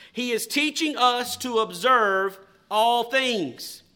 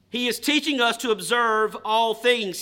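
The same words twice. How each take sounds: First: Said slowly, word by word; slow dictation. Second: Said in the usual way. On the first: Shown as a demonstration. Preacher reading slowly for notes to be written, slow dictation. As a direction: dictate it so they can write it down. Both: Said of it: "I will read them slowly".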